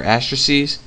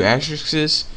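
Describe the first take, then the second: First: "asterisks" ending in a long -eez sound; alternative plural variant. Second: "asterisks" with an extra syllable, ending in -ixes; first plural variant. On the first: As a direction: say "asterisks" as AS-truh-seez. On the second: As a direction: say "asterisks" as AS-trick-siz. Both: Shown as a demonstration. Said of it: "I don't know how you say it".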